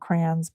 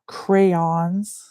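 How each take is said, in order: First: It is said like 'crowns', one clipped syllable. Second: It is said as 'cray-ons', two full syllables. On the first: The speaker calls it wrong. "I call them crayons" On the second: The speaker calls it right. "but they're crayons"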